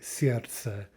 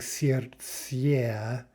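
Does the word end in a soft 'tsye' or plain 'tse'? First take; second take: plain tse; soft tsye. First: The word ends with a plain 'tse' sound. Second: The word ends with a soft 'tsye' sound. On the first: The speaker calls it right. "We're saying more like ts, simply сердце" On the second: The speaker calls it wrong. "we're not really saying сердце"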